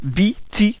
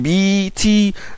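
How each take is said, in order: First: The vowels are said short. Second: The vowels are drawn out long.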